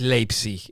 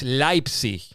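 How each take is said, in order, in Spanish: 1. La primera vocal suena como 'ei'. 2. La primera vocal suena como 'ai'. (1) "no es Leipzig" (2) "la E y la I se dice como una AI"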